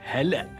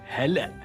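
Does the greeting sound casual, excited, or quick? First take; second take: quick; quick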